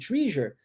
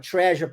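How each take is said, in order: First: The first vowel sounds like 'ee'. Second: The first vowel sounds like 'eh'. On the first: The speaker calls it wrong. "como treasure, você será corrigido" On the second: The speaker calls it right. "pronunciando a palavra treasure"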